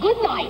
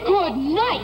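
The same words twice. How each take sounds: First: It is said with little energy. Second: It is said with more energy. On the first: The speaker calls it wrong. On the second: The speaker calls it right.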